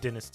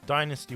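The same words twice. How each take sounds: First: Dynasty is said with the British pronunciation. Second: Dynasty is said with the American pronunciation. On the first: "I'm going to be calling it" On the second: "is the American pronunciation"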